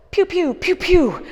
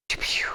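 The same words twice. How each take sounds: First: High, loud laser-gun pews; pew pew sound effect. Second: Whispered laser-gun noises, soft; whispered pew pew. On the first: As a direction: blast out toy gun noises. Mimics toy blaster while pivoting. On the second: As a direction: breathe the pews under your voice. Repeats blaster noise softly. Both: Pretend.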